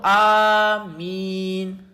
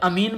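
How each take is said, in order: First: The first vowel is drawn out long. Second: The first vowel is said short. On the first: "अब ये मद पाया गया, मतलब खींचा गया" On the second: "अमीन बोलूं तो ये मद नहीं है"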